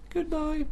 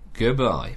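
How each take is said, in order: First: The word is said in a high pitch. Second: The word is said at normal pitch. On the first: "Say it higher" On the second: "Say goodbye again"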